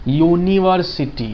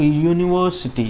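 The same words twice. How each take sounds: First: यूनिवर्सिटी said slowly, each syllable drawn out; pronunciation demo. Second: Said in the usual way. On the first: Shown as a demonstration. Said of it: "इसका उच्चारण देखते हैं". (यूनिवर्सिटी का धीमा, खींचकर किया गया उच्चारण) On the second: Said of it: "इसका उच्चारित क्या करते हैं हम लोग".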